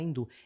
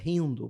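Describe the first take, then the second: First: The word begins directly with a vowel sound. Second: The word begins with a breathy h-like sound. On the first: The speaker calls it wrong. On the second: The speaker calls it right. "porque o H em sânscrito é som de R"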